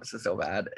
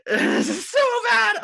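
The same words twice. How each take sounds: First: Said in the usual way. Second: High, loud, drawn-out wail of embarrassment; embarrassed squeal. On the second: Real, not acted. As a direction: shriek it slowly, mortified and laughing at yourself. Embarrassed outburst before confessing, second take.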